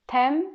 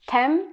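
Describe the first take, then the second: No difference in how they are said.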